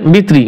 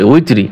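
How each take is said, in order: First: The word begins with a B sound. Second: The word begins with a W sound. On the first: The speaker calls it wrong. "অনেকে ভুল করে পড়ে বিত্রি" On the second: The speaker calls it right. "সলাতিল উইত্রি হবে"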